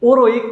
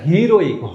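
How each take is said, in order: First: The word starts with a vowel sound. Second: The word starts with an h sound. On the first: The speaker calls it wrong. "ওরোইক তো বলি না" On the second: The speaker calls it right. "তাহলে হোয়ের হয়ের মতো উচ্চারিত হচ্ছে"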